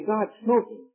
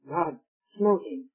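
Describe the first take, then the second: First: Objector. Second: Slow, musing repeat with a rising end; slow mocking echo. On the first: Retold or imitated. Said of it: "You say". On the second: Shown as a demonstration. Preacher echoing a congregant's objection, slow mock musing. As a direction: echo the objection back slowly, half mocking. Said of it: "Oh, I see".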